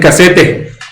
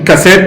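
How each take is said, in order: First: The word has a Spanish-style pronunciation. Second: The word has an English-style pronunciation. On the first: "dicen casete" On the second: "no dicen cassette"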